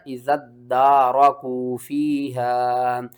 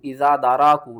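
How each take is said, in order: First: इज़्ज़त दारकू फ़ीहा with doubled d and stretched vowels; measured, joined इज़्ज़त दारकू फ़ीहा; correct reading. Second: इज़ा दारकू with an open aa and single light d; wrong reading. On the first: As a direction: lock इज़्ज़त into दारकू, then draw out फ़ीहा. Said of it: "आपने पढ़ना". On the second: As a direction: say इज़ा दारकू loosely, without doubling the d. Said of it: "नहीं पढ़ना". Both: Shown as a demonstration.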